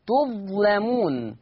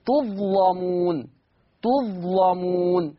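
First: تظلمون with a thick, heavy lam, slow; slow demo of تظلمون with heavy lam. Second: تظلمون drawn out slowly with a thick lam; slow tajweed demo of تظلمون; heavy lam. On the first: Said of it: "تغليظ اللام،". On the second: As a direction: darken the lam in تظلمون and stretch it. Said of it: "فلورش التغليظ". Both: Shown as a demonstration.

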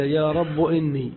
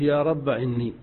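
First: "رب" ending in u; رب with damma. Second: "رب" closing on a short a; رب with final a. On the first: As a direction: say "رب" with a damma on the end. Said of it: "حذفها وضم آخر المنادى". ("رب" بالضم) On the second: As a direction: say "رب" with a fatha, no alif. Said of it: "حذف الألف". ("رب" بالفتح) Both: Shown as a demonstration.

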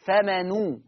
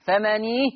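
First: فمنو very slow, with a rounded u; Warsh damma on noon. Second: فمني slow, with an i on the noon; Hafs kasra on noon. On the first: Teacher repeating the Warsh reading with damma. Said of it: "ورش فمنو". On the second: Teacher repeating the Hafs reading with kasra. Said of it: "تاني يا حفص فمني". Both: Shown as a demonstration.

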